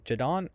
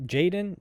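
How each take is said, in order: First: Jadon said "juh-DON", questioning; chosen pronunciation. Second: Jaden said "JAY-den", questioning; alternative pronunciation. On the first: Host settling on a name, tries Jadon as juh-DON. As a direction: stress the second syllable of Jadon. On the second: Host weighing two name readings, tries Jaden as JAY-den. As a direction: stress the first syllable of Jaden. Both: Shown as a demonstration. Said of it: "I'm gonna just say Jadon".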